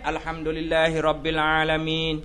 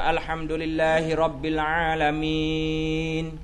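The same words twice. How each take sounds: First: The vowels are kept short. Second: The vowels are drawn out long. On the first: "Kalau dia pendek" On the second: "imam yang panjang"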